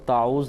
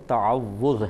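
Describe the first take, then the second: First: The middle 'w' sound is dropped and shortened. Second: The middle 'w' sound is doubled and held. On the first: The speaker calls it wrong. "ये लफ्ज़ ताऊज़ नहीं है" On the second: The speaker calls it right. "ताअव्वुज़ है, तफ़ाउल के बाब पर है"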